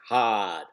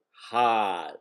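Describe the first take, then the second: First: Said in the usual way. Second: Hard with a dropped R, Boston style; Boston accent. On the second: Shown as a demonstration. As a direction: say hard as hah, no R. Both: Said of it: "As in Boston accent".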